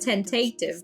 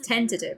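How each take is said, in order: First: A vowel in the word is drawn out long. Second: A vowel in the word is kept short. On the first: The speaker calls it wrong. "my brain went tentative... pronouncing it long when it's supposed to be short" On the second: The speaker calls it right. "but it's tentative"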